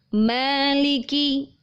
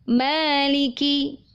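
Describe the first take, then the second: Both takes have the same delivery.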